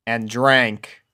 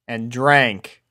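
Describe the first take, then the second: No difference in how they are said.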